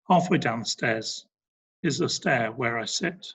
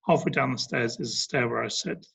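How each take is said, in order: First: It is read slowly with natural pauses. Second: It is read quickly without any pauses. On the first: The speaker calls it right. "it's broken up, and that's creating natural pauses" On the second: The speaker calls it wrong. "So it's not"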